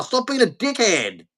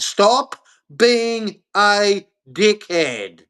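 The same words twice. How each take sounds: First: Said in the usual way. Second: "Stop being a dickhead" drawn out with pauses; word-by-word emphasis. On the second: Real, not acted. Making sure they understand that, "Stop being a dickhead" slowly word by word.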